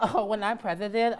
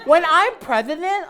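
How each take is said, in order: First: Breaking into a laugh mid-line. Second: Put-on high loud kid voice, stretched; hammed-up child's boast; whiny kid. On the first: Pretend. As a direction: giggle through the words. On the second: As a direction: declare it like a whiny boy. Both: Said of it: "I can imagine Andrew now as a kid".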